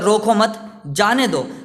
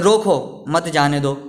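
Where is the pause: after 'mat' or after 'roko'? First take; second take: after mat; after roko. First: There is a pause right after 'mat'. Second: There is a pause right after 'roko'. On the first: Do not stop them; let them go. "मत के आगे अपनों ने dash लगा दिया" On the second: Stop them; do not let them go. "अगर अपन ऐसे पढ़े"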